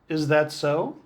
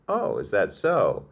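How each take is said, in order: First: It sounds flat and unimpressed. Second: It sounds surprised and glad.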